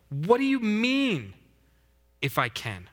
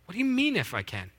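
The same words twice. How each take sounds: First: High, slow incredulous question; incredulous Jesus. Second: Incredulous. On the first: Preacher as Jesus, incredulous at the father's doubt. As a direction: repeat his words back in disbelief. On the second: Preacher re-voicing Jesus, disbelieving the father. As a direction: scoff at the doubt, pitched high. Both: Acted. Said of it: "Jesus answered".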